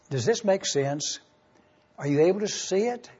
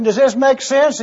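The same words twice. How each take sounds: First: Soft check-in. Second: Raised, higher question to wake the room; brisk question. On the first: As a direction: ask it softly, almost to yourself. Pastor checking in softly. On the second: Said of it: "I'm gonna ask you a question". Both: Real, not acted.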